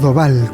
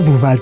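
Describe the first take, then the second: First: The first vowel is an O sound. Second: The first vowel is a U sound. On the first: The speaker calls it right. "prometo que lo voy a pronunciar bien" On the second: The speaker calls it wrong. "No Duval"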